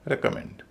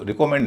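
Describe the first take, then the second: First: recommend as REK-uh-MEND; no second-syllable stress. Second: recommend as ri-KO-mend; wrong pronunciation. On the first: Teacher correcting the mistake, recommend as REK-uh-MEND. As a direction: keep the middle of recommend weak. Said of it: "दूसरे हिस्से पर stress नहीं है". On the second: Teacher showing what not to say, recommend as ri-KO-mend. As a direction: say recommend with "ri" and a full "ko". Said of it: "इसको recommend नहीं कहेंगे". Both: Shown as a demonstration.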